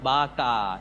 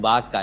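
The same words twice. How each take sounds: First: The vowel is said long. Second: The vowel is said short. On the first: It means breadfruit. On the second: It means basket.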